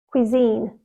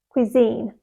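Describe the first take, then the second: Both takes have the same delivery.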